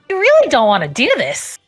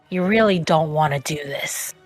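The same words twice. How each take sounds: First: It is said in a changed character voice. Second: It is said in the speaker's normal voice.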